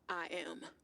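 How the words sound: It sounds hesitant and unconvincing.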